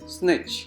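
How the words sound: It is said with an American accent. "Americans pronounce it as snitch"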